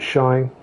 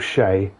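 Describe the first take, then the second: First: The name rhymes with 'sky'. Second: The name rhymes with 'day'. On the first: This is how the owner of the name says it. The speaker calls it right. "he pronounces it Shy" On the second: This was the speaker's own mistaken guess. The speaker calls it wrong. "I thought it was Shay"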